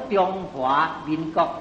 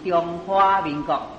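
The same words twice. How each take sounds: First: 華 is said with the fifth tone. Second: 華 is said with the flower-like tone. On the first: The speaker calls it right. "咱中国叫做" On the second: The speaker calls it wrong. "唔是"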